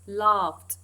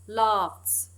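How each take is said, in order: First: The word ends without an s sound. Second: The word ends with an s sound. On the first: The speaker calls it right. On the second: The speaker calls it wrong.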